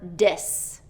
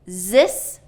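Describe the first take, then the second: First: The word begins with a d sound. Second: The word begins with a z sound. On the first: "or D" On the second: "substituting a Z"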